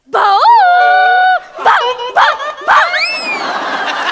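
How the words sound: The barking sounds like a surprised dog.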